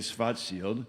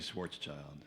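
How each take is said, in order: First: The name is said with German pronunciation. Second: The name is said with English pronunciation. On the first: This is how it is said in Germany. "if you're in Germany, you say" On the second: This is how it is said outside Germany. "if you're not, you say"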